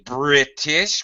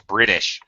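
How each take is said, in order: First: The T is said as a clear, crisp T. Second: The T is said as a quick flapped D. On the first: This is how British speakers say it. "we don't really say British" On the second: This is how Americans say it. "Americans would say he's British"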